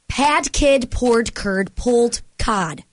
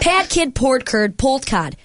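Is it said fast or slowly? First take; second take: slowly; fast. First: It is said at a slower pace. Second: It is said at a faster pace.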